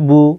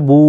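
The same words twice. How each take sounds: First: The vowel is short and not drawn out. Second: The vowel is drawn out and held longer. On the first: "এখানে আপনাকে টানতে হবে না।" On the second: "এই উল্টো পেশকেও একালিফ পরিমাণ টানতে হবে।"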